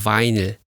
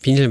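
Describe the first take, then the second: First: The first syllable is a long 'vai' sound. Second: The first syllable is a short 'bi' sound. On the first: It is the proper name foreigners use. The speaker calls it right. "정식 명칭은, 예, 바이닐입니다" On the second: It marks the speaker as not a native speaker. The speaker calls it wrong. "처음에 수업을 들을 때 비닐이라고 읽었습니다"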